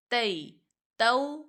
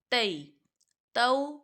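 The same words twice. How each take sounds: The two takes are said the same way.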